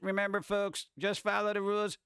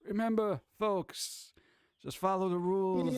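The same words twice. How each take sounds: First: It is read in a plain, normal voice. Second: It is said in a put-on mafia voice.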